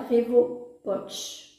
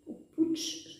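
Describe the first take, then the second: First: Pouch said in her plain reading voice; first try at the name. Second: Pouch tried again, higher and whispered; unsure whispered retry of Pouch, pitched up; second try at the name. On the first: Reading the palette name to viewers, first pronunciation. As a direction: reads Pouch out as the brand name, steady. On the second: Doubting herself on the palette name, whispered alternate pronunciation. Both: Shown as a demonstration. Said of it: "je sais pas comment ça se prononce".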